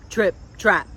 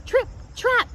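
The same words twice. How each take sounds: First: Said in the usual way. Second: "Trip, trap" piped much higher, light and quick. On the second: A narrator's reading. Little goat hooves on the bridge, high piping trip trap.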